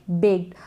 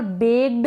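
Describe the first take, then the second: First: बेक्ड as "bekt", with a light T; voiceless ending. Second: बेक्ड misread as "begd"; wrong D ending. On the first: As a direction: say बेक्ड ending in a small unvoiced t. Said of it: "क्या पढ़ेंगे?". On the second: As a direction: say बेक्ड with a voiced g-d at the end. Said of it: "ड का sound नहीं आएगा". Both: Shown as a demonstration.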